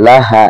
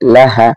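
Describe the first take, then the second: Both takes have the same delivery.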